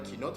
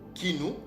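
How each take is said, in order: First: The word ends in a 't' sound. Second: The word ends in an 'oo' vowel. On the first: The speaker calls it wrong. "qui se lisait pas keynote" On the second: The speaker calls it right. "mais qui se lit kinu"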